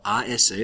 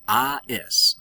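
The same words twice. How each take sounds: First: Said in the usual way. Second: "A S" spelled out high and emphatic; teacher highlighting "A S"; spelled ending stressed. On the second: Shown as a demonstration. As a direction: lift up on "A S" to mark the ending. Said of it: "the to form is".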